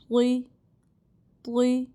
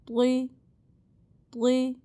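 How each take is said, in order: The two takes are said the same way.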